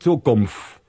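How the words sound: It is said in a Rhineland Kölsch accent.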